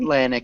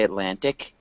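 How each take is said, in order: First: The middle T is swallowed, not fully released. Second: The middle T is fully and clearly pronounced. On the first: The speaker calls it right. "Atlantic is it" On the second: The speaker calls it wrong. "It sounds odd to say Atlantic. It's just a little bit excessive"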